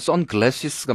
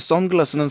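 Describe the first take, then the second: First: The word ends with 'glasses', an extra syllable. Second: The word ends in a single 'glass' syllable. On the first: The speaker calls it right. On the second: The speaker calls it wrong.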